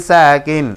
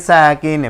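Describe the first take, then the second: The two takes are said the same way.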